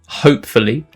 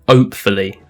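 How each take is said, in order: First: The word begins with an H sound. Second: The word begins without an H sound.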